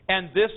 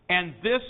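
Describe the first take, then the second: Both takes have the same delivery.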